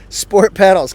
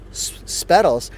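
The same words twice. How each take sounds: First: "sport pedals" as two clear words, louder; corrected retry. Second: "spedals", the start of "sport" run into "pedals"; tripped-over word. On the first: Reviewer correcting his slip on the pedals, loud "sport pedals". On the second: Reviewer naming the sport pedals, fumbling it as "spedals". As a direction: stumble on the s and blurt "spedals". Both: Real, not acted. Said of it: "you can say that better".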